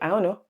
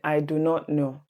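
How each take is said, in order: First: The words 'do not' merge into one syllable. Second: The words 'do not' are said separately. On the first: It is the natural shortcut. "we just say" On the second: It is the formal way of speaking. "instead of saying"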